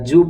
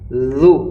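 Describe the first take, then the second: First: It begins with a j sound. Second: It begins with a soft th sound. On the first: The speaker calls it wrong. "ये बिल्कुल गलत है" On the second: The speaker calls it right. "ये ज़ाल है, ज़ुबान की नोक ऊपर के सामने के दांतों के किनारे से अदा किया जाता है"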